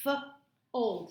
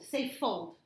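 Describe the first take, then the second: First: Put-on "F-old" split into f and old; sounding out. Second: Said in the usual way. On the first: Shown as a demonstration. Tutor segmenting F-old for the child to tap. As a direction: break "F-old" into its onset and rime.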